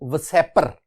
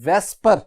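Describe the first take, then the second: First: An extra vowel separates the s and p sounds. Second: The s and p sounds run straight together. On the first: "लिखा हुआ है V S E P R" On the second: "आप इसे pronounce करेंगे वेस्पर"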